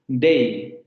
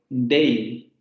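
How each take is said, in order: Both takes have the same delivery.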